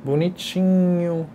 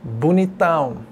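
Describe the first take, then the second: First: Bonitinho slowly stretched out on a level tune; diminutive expression. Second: Bonitão pushed out with a falling end; augmentative expression. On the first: Teacher contrasting grades of pretty, slow drawn-out Bonitinho. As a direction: linger on Bonitinho as only mildly pretty. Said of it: "a mudança de seu significado conforme a expressão". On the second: Teacher contrasting grades of pretty, emphatic falling Bonitão. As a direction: hit Bonitão hard as very handsome. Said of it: "ele vai ter sua variação". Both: Shown as a demonstration.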